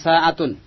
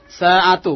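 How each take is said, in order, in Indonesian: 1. Kata ini berakhir dengan bunyi n yang ditambahkan. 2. Kata ini berakhir dengan vokal u biasa. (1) "bukan sa'atun" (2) "Sa'atu bukan sa'atun"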